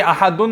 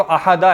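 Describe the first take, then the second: First: अहादुन with a nunated "-un" ending; rejected "-un" form. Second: अहादा with an open "-a" ending; correct "-a" form. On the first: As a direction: finish अहादुन on "dun". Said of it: "ये अहादुन नहीं है". (अहादुन को दो पेश के साथ) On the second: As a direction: finish अहादा on "da", no n. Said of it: "ये तो अहादा है ना". (अहादा को ज़बर के साथ) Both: Shown as a demonstration.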